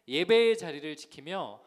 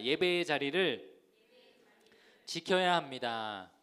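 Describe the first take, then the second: First: Said in the usual way. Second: Slow, loud lead for the congregation to echo; slow, emphatic call-and-repeat. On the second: Shown as a demonstration. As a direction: draw out each phrase firmly for them to repeat. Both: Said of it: "한번 따라해 보겠습니다".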